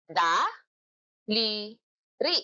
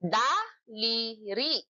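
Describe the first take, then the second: First: "Daliri" stretched very slowly, syllable by syllable; very slow syllabified "Daliri". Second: Drawn out slowly, syllable by syllable; slow syllabified "Daliri". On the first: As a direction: draw each syllable out. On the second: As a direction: stretch the word out. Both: Shown as a demonstration. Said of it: "Ilang pantig?".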